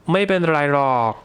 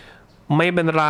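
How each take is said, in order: First: Dragged out. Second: Said in the usual way. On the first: Shown as a demonstration. Teacher drags out ไม่เป็นไรหรอก to soften the negation. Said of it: "drag that out a little bit". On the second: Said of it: "So you say".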